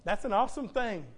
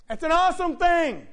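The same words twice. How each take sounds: First: Said in the usual way. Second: High, loud preacher's exclamation; ringing, emphatic repeat; exclaimed praise. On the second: Real, not acted. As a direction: shout it so they feel it. Repeats it louder to congregation.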